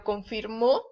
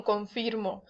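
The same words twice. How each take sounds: First: Confirmó stressed con-fir-MÓ; con-fir-MÓ, past-tense stress; stress on last syllable. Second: Confirmo stressed con-FIR-mo; con-FIR-mo, weight on the middle; stress on middle syllable. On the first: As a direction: land on the final ó of confirmó. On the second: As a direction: say confirmo with a light final o. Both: Shown as a demonstration. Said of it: "con acento es en pasado".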